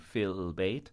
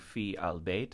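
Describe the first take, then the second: First: The preposition and the article are run together. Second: The preposition and the article are said separately. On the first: The speaker calls it right. "we run the preposition together with the alif lam" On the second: The speaker calls it wrong. "we don't say fi al-bayt"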